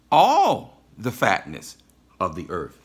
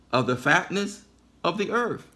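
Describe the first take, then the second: First: "All" loud and stretched out, the rest dropping away; stress on ALL. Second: Said in the usual way. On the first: Shown as a demonstration. Preacher hammering a word of the father's blessing, loud stress on "All". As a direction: hit "All" hard and hold it. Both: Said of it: "I emphasize all".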